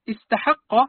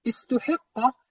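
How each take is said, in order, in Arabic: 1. التاء والحاء كلتاهما تحمل الحركة 'a'. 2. التاء تحمل الحركة 'u' والحاء تحمل الحركة 'i'. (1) "بفتح التاء والحاء" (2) "بضم التاء وكسر الحاء على البناء للمفعول"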